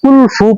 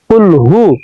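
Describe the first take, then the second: First: The second word starts with an f sound. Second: The second word starts with an h sound. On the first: The speaker calls it wrong. "ভুলটি হলো আমরা কুল ফু পড়ি" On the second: The speaker calls it right. "আসলে কুল ফু শব্দটা না, কুল হু"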